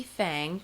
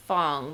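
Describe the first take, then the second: First: "Fang" said with a flat a, like "fang" in "tang"; "Fang" with the a of "cat"; pronounced fang. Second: "Fang" said with a broad ah vowel, like fahng; "Fang" rhymed with "song", fahng; pronounced fahng. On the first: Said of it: "but it could be Fang". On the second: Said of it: "I believe it's pronounced Fang". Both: Shown as a demonstration.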